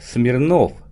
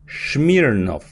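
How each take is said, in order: First: The surname begins with an 's' sound. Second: The surname begins with an 'sh' sound. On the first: This is how the name reads as written. "Если вы будете читать, вы прочитаете Яков Смирнов" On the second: This is how Americans say the name. "в Америке это будет читаться Яков Шмирнов"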